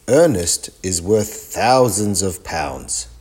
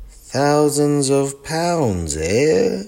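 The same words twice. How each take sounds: First: Said in the usual way. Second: Slow, high, drawn-out disbelief; amazed. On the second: Acted. Gran marvelling at the expert's price, slow and amazed. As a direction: savour the sum in wonder. Gran hears the bears' value.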